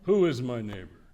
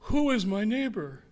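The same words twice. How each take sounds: First: It is asked in a pointed, lawyerly, narrowing tone. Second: It is asked as a simple, sincere question. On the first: Trying to narrow down the obligation. "I know this tone of voice" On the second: A genuine request to know. "It wasn't"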